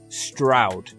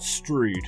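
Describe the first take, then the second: First: The vowel sounds like the one in loud. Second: The vowel sounds like the one in rude. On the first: The speaker calls it right. "It rhymes with loud or proud" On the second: The speaker calls it wrong. "It's not Strood. I don't mean to be rude"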